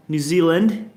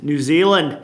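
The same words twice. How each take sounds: First: Corrected attempt at a New Zealand accent. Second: Attempted New Zealand accent landing as Australian. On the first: Streamer retrying the country's name in a New Zealand accent. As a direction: try it like a New Zealander, rising at the end. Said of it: "That's a bit more New Zealand there". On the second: Streamer greeting viewers from New Zealand, slipping into Australian accent. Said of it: "Wait, that was Australia". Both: Shown as a demonstration.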